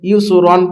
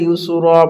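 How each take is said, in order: First: The word ends with an n sound. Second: The word stops without an n sound. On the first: The speaker calls it wrong. "দো জাবারে ইউসু রন পড়তে হবে না" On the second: The speaker calls it right. "এখানে ইউসু র পড়তে হবে"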